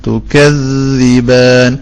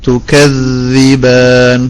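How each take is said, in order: The two takes are said the same way.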